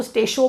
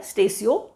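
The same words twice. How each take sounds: First: "स्टेशो" with a sh sound, run into two syllables; alternative pronunciation. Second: "स्टेसियो" with an s sound and a separate i-o ending; correct pronunciation. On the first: Teacher quotes how some people read it, "स्टेशो" with sh. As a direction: say "स्टेशो" as stay-sho. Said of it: "कुछ लोग तो स्टेशो पढ़ लेते हैं". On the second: Teacher shows students the Latin word, correct pronunciation of "स्टेसियो". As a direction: say "स्टेसियो" as sta-si-o. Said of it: "that is how we pronounce it". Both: Shown as a demonstration.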